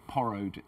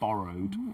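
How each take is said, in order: First: The word begins with a voiceless p sound. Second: The word begins with a voiced b sound. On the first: The speaker calls it wrong. "she also said porrowed" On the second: The speaker calls it right. "instead of borrowed"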